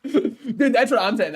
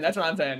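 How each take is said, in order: First: Laughing through the words; chuckling while agreeing. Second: Said in the usual way. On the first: Real, not acted.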